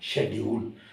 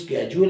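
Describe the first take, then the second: First: The word begins with an 'sh' sound. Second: The word begins with an 'sk' sound. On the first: This is the British pronunciation. "Correct pronunciation है वो है शेड्यूल" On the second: This is the American pronunciation. "वो American pronunciation है"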